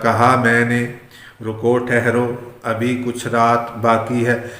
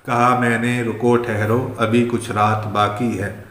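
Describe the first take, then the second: First: The line is recited at a slower pace. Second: The line is recited at a faster pace.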